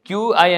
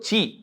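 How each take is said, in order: First: It is said as the letter names Q and I. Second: It is said as one syllable, chee. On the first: The speaker calls it wrong. "క్యూఐ అని పలకకూడదు" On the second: The speaker calls it right. "చి అంటారనమాట"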